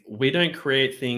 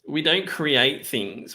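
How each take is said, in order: First: It is read in the speaker's normal voice. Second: It is read in a mocking put-on 'SJW' voice.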